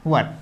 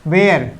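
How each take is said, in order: First: "वर" short and clipped like "wər"; correct pronunciation. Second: "वेयर" said like "wear", the mistake students make; wrong pronunciation. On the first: Teacher giving students the correct "वर". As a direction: say "वर" as "wər", one quick syllable. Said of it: "ये correct उच्चारण है इसका". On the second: Teacher mimicking students' wrong "वेयर". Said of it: "अगर आप इसको ये बोलते हैं". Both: Shown as a demonstration.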